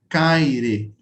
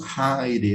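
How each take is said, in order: First: The word begins with a hard k sound. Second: The word begins with a breathy h sound.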